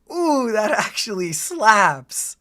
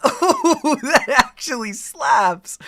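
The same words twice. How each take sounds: First: Said in the usual way. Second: Louder, higher, hyped-up; excited. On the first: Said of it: "repeats it bigger". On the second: Real, not acted. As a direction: really sell the hype. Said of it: "second, bigger take".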